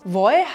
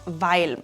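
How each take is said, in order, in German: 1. Das L wird durch einen Vokal ersetzt. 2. Das L wird deutlich als Konsonant gesprochen.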